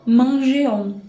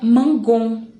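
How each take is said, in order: First: The g is said soft, like in measure. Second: The g is said hard, like in go. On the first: The speaker calls it right. "para dar a sonoridade correta" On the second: The speaker calls it wrong. "sem o e, fica mangon. E aí não fica certa a pronúncia"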